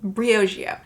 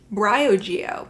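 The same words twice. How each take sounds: First: Briogeo as BREE-oh-zhee-oh, falling; settled pronunciation. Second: Briogeo as BRY-oh-jee-oh, falling and louder; alternative pronunciation. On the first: Vlogger settling on a brand name, BREE-oh-zhee-oh for Briogeo. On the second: Vlogger trying out a brand name, BRY-oh-jee-oh for Briogeo. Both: Shown as a demonstration. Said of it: "I don't know".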